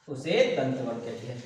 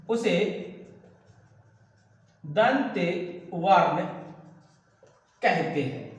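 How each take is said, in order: First: Said in the usual way. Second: Drawn-out words with long gaps; word-by-word dictation. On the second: Real, not acted. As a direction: dictate slowly, pausing after each word. Teacher dictates while writing, word by word. (रुक-रुककर धीरे लिखवाते हुए)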